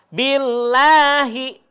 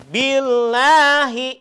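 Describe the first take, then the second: Both takes have the same delivery.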